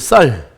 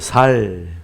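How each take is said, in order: First: The first s sound is tense and strong. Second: The first s sound is plain and soft. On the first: The speaker calls it right. "쌀 똑바로 해보세요" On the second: The speaker calls it wrong. "경상도 분들은 이 쌀 발음이 안 나오죠"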